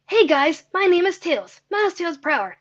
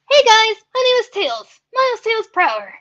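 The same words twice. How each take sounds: First: The voice is lower and less gritty. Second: The voice is higher and more gritty. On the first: This is the older version of the character voice. The speaker calls it wrong. "My Tails voice sound used to sound like" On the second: This is the current version of the character voice. The speaker calls it right. "It's a lot higher, more gritty"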